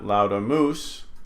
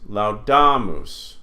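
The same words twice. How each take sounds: First: The stress is on the last syllable. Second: The stress is not on the last syllable. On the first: The speaker calls it wrong. "not laudamus" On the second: The speaker calls it right. "This word is laudamus"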